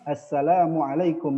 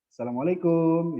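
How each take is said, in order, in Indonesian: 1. Diucapkan dengan logat ala Arab. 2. Diucapkan dengan logat ala Indonesia. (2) "Kalau di Indonesia ya, orang-orang Indonesia atau yang di perkampungan ya lebih kepada uh, logat bahasa seperti itu ya"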